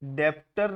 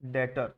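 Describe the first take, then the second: First: A b-like sound is heard before the t. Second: No b sound is heard before the t. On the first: The speaker calls it wrong. "डेप्टर नहीं बोलते" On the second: The speaker calls it right. "बी silent होता है"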